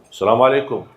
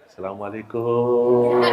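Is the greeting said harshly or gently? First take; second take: harshly; gently. First: The greeting sounds loud and harsh. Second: The greeting sounds soft and gentle. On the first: It can frighten or offend the listener. The speaker calls it wrong. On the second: It comes across as polite and friendly. The speaker calls it right. "itu orang Indonesia"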